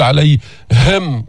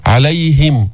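First: عليهم slowly, ه pushed out with a hard breath; تكلف في الهاء; overdone ha. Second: عليهم with a light, distinct ه; بيان الهاء بلا تكلف; clear easy ha. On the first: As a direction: force the ه of عليهم too much. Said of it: "تدفع النفس من صدرك بقوة". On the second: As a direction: show the ه of عليهم without effort. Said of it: "بين الهاء بدون تكلف". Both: Shown as a demonstration.

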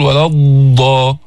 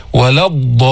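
First: ولا الضا with the ض stretched too long; overlong dad, wrong. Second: ولا الضالين with the ض given its proper measured length; correct dad. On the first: Teacher shows students the wrong overlong ض. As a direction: drag the ض in الضا on purpose. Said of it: "مش هيك". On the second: Teacher models the correct ولا الضالين. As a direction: hold the ض in الضالين just enough. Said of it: "لا هيك ولا هيك". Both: Shown as a demonstration.

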